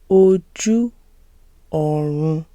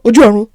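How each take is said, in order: First: It is said slowly. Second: It is said fast.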